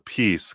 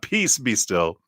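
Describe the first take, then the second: First: There is a pause after peace. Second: It runs on with no pause after peace.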